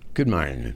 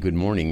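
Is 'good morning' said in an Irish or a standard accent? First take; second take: Irish; standard. First: It is said in an Irish accent. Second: It is said in a plain, standard accent. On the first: The speaker calls it right. "It would be good morning. Morning. M-A-R-N-I-N" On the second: The speaker calls it wrong. "It wouldn't be good morning"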